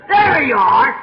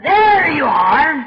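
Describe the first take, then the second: First: Loud, clipped-free gotcha shout; triumphant challenge. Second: Loud, slow, drawn-out gotcha; triumphant challenge. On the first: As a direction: fling it at the preacher. Man repeats his challenge. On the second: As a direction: thrust it out like a man baring his chest. Man pushes out chest, challenging. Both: Retold or imitated.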